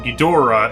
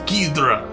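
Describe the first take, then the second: First: The name is said heavily, with a solid punch. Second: The name is said quickly and lightly. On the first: "is like boom, like a, a solid title" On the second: "It's like fast"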